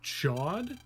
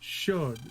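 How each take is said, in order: First: The name is said the English way. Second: The name is said the French way. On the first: This is how the game has always said it. "the way it's always been pronounced in Battle Network is chod" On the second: This is how the original language says it. "supposed to be pronounced something like should because it's French"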